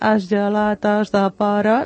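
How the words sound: It is said with Mallorcan vowels and article.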